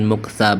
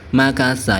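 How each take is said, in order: First: The first vowel is u, with two syllables. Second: The first vowel is a, with three syllables. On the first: The speaker calls it wrong. "Bukan muksa" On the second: The speaker calls it right. "yang benar itu makasa"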